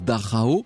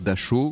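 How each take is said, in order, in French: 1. Le nom se prononce avec des sons allemands. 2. Le nom se prononce avec des sons français. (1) "en allemand ça se prononce Dachau" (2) "Vous me permettrez de dire Dachau, comme tout le monde en France"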